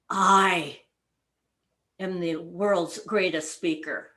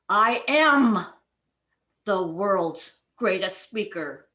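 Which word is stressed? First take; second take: I; am. First: The word "I" is stressed. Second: The word "am" is stressed.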